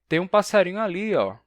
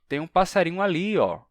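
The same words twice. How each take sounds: No difference in how they are said.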